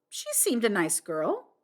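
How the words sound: The stress is on the word nice.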